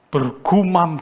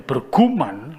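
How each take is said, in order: First: The word ends with an m sound. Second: The word ends with an n sound. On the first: The speaker calls it right. "bergumam jadi berguman" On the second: The speaker calls it wrong. "salah sudah"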